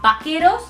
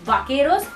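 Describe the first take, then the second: First: The word begins with a b sound. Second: The word begins with a v sound. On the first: The speaker calls it right. "this V ... always gives the B sound" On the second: The speaker calls it wrong. "it's not vaqueros"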